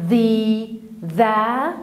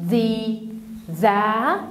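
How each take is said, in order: The two takes are said the same way.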